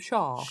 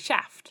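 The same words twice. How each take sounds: First: The word is said in an English accent. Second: The word is said in an American accent. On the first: The speaker calls it wrong. "in an English accent, it is wrong, because we're calling him Shaft" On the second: The speaker calls it right. "Whereas in America, he's Shaft"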